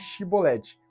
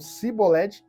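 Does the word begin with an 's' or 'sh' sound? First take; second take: sh; s. First: The word begins with a sh sound. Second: The word begins with a plain s sound. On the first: The speaker is truly from Israel. The speaker calls it right. "em vez de Shibolete" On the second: The speaker is not really from Israel. The speaker calls it wrong. "eles falavam Sibolete"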